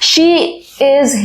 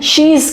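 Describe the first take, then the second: First: It is said as two full separate words. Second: It is said as one contracted word. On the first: The speaker calls it wrong. "Natural rhythm नहीं है" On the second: The speaker calls it right. "शीज कहते हैं"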